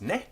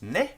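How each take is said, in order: First: Said in the usual way. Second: Ne pitched up high and louder as a question. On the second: Shown as a demonstration. Teacher showing ne marks a question, rising high. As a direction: lift ne sharply upward like a question mark. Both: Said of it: "this word is a question mark".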